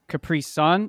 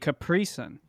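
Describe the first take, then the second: First: The stress falls on the word Sun. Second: The stress falls on the syllable pri. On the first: "So the emphasis is on the sun" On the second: "I put it on the pre"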